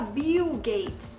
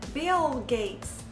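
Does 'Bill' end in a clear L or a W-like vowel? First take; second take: W-like vowel; clear L. First: The final L sounds like a W-like vowel. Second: The final L is clear, tongue raised. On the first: The speaker calls it wrong. "você não fala Bill Gates" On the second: The speaker calls it right. "você fala Bill, Bill Gates"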